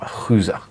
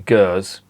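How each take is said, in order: First: The word begins with a breathy H sound. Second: The word begins with a hard G sound.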